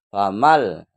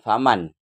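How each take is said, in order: First: The word ends in an l sound. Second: The word ends in an n sound. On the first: The speaker calls it right. "langsung ma langsung ke lam" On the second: The speaker calls it wrong. "Jadi bukan faman"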